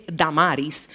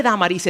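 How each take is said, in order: First: Damaris with stress on the middle "ma"; other pronunciation of Damaris. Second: Damaris stressed on the opening "Da"; stress on first A. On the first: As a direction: say Damaris leaning on the second syllable. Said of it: "dicen que su nombre es". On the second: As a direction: say Damaris leaning on its first syllable. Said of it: "el acento está en la primera A". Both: Shown as a demonstration.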